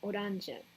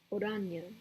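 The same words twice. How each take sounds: First: The middle consonant sounds like an English J. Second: The middle consonant sounds like an English Y.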